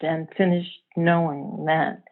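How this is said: The line ends with a final, settled fall. Something has come to an end. "it feels like an end to something"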